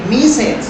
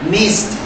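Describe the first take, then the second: First: The ending is said as an extra syllable. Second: The ending is said as a t sound. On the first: The speaker calls it wrong. "Most people make mistakes like miss it. No, it's incorrect" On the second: The speaker calls it right. "the pronunciation is with T"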